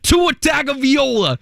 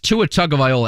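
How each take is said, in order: First: The name is shouted in a mock mispronunciation. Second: The name is said in its standard pronunciation. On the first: It imitates a viral video's version of the name. The speaker calls it wrong. "somebody shouts" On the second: It is the player's actual name. The speaker calls it right. "But no, it is"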